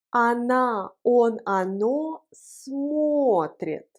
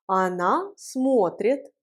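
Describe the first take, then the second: First: Very slow, pronouns set apart; slow model pronunciation. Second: Said in the usual way. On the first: Shown as a demonstration. Teacher leading the joint conjugation, slow drawn-out model. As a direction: stretch out each word for learners. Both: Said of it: "Prononçons ensemble la conjugaison".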